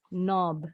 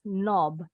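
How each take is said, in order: First: The vowel is said with rounded lips. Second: The same.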